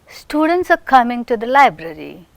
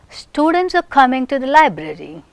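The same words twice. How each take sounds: No difference in how they are said.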